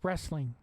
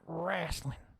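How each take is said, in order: First: The first vowel sounds like 'eh'. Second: The first vowel sounds like 'ah'. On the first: The speaker calls it right. "It's wrestling" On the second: The speaker calls it wrong. "W R A S S"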